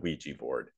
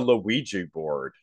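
First: Ouija is given its usual, standard pronunciation. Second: Ouija is given a funny, odd pronunciation. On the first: The speaker calls it right. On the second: The speaker calls it wrong.

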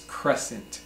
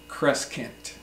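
First: The middle C is silent. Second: The middle C is pronounced as a K sound. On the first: The speaker calls it right. "but the C is silent, so it's crescent" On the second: The speaker calls it wrong. "It's not crescent"

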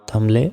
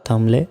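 The two takes are said the same way.

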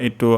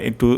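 The two takes are said the same way.

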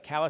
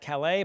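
First: The name is said the local way. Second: The name is said the non-local way. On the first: Locals say it this way. The speaker calls it right. "Calais is how they pronounce it" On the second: Outsiders might say it this way. The speaker calls it wrong. "Not Calais"

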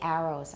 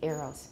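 First: The first vowel sounds like the vowel in 'cat'. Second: The first vowel sounds like the vowel in 'air'. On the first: The speaker calls it wrong. "I don't say arrows" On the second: The speaker calls it right. "I say arrows"

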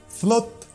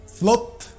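No difference in how they are said.

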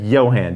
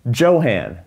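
First: The name begins with a 'Y' sound. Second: The name begins with a 'J' sound. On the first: This is the Swedish way to say the name. The speaker calls it right. "you said Johan" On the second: This is an English way to say the name. The speaker calls it wrong. "Don't you mean Johan?"

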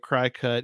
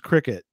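First: The first syllable sounds like 'cry'. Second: The first syllable sounds like 'crick'. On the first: The speaker calls it wrong. "I'm trying to say it CryCut, even though that's not the proper pronunciation" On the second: The speaker calls it right. "It's probably pronounced cricket"

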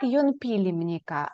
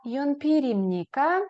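First: The linking consonant is a clear L sound. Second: The linking consonant is a flapped R sound. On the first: The speaker calls it wrong. "не як йонпілімніка" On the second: The speaker calls it right. "а як йонпірімніка"

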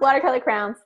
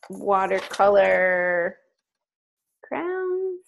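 First: Crayons is said as one syllable, like crowns. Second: Crayons is said with two syllables, cray-ons. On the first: The word is said the way the speaker naturally says it. "Let's be true to ourselves" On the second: The word is said in a more standard way to avoid teasing. "I tried to say it hybrid so y'all wouldn't make fun of me"

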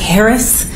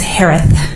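First: The last sound is a clear s. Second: The last sound is a lisped th. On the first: "pronounced like Harris" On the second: "with a lisp. It's Harith"

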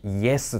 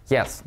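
First: It is said with a Japanese-style pronunciation. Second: It is said with a native English pronunciation. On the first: The speaker calls it wrong. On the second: The speaker calls it right.

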